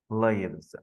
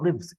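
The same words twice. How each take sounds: First: The vowel sounds like the one in 'five'. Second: The vowel sounds like the one in 'give'. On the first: It is the plural of the noun life. The speaker calls it right. "it's a noun, and it's the plural of the noun life" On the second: It is the verb meaning to reside or be alive. The speaker calls it wrong. "It's not lives, it's not a verb here"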